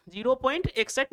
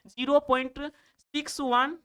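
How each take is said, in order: First: इकसठ run together as one whole number after the point; decimal read wrongly. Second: सिक्स वन as two separate English digits after point; digit-by-digit reading. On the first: Teacher warns pupils off a reading, इकसठ said as one number. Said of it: "इकसठ नहीं पढ़ेंगे". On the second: Teacher shows pupils how decimals are read, सिक्स वन digit by digit. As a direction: pause after point, then give each digit: सिक्स, वन. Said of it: "इसको पढ़ेंगे". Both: Shown as a demonstration.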